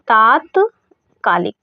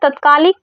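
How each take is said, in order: First: The first vowel is long. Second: The first vowel is short. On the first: The speaker calls it right. "इसका जो पहला वाला शब्द है वो बड़ा हो जाता है" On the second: The speaker calls it wrong. "तो ये गलत है।"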